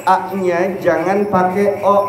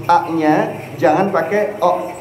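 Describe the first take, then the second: Both takes have the same delivery.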